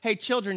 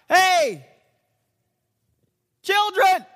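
First: It is spoken at a normal, quiet volume. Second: It is shouted loudly as if to someone far away. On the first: The call is meant for someone close by. The speaker calls it wrong. "it's probably not like this" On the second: The call has to reach someone 100 yards away. The speaker calls it right. "It's got to go 100 yards"

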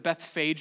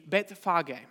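First: The name has a common English pronunciation. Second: The name has a Hebrew pronunciation. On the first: "that's often how we pronounce it" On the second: "the Hebrew way to pronounce it would be Bethphage"

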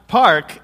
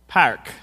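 First: It is said without a Midwestern accent. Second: It is said in a nasal Midwestern accent. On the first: "It's not park" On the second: "it's park"

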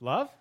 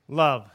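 First: It is said rising like a question. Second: It is said flatly, falling like a statement.

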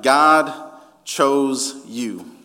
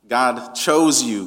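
First: The stress is on God. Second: The stress is on chose.

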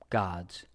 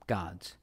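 The two takes are said the same way.

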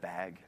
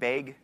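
First: The word is said in a general standard accent. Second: The word is said in the local regional accent. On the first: This is how people elsewhere say it. "instead of" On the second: This is how people in the speaker's region say it. "we say things like bag"

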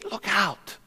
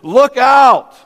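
First: It is said in a pleased, admiring tone. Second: It is said in an angry, warning tone. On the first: Look at the beautiful view. "we do it in a very positive thing" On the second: Beware of a danger. "you could almost sense his anger boiling up"

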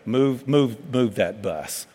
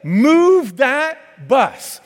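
First: It is said flatly, with little energy. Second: It is said loudly, with lots of energy. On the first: The speaker calls it wrong. "y'all wouldn't be out there going" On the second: The speaker calls it right. "let's say it with some enthusiasm"

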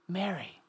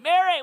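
First: The name is said softly and gently. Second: The name is yelled harshly.

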